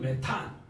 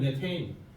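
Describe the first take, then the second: First: The word ends with a German-style 'tan' sound. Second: The word ends with an English-style 'tein' sound. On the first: This is the older German-style reading. "독일식으로 읽으면 메탄" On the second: This is the English-style reading now used officially. "혀를 좀 거꾸로 해서 읽으면 메테인"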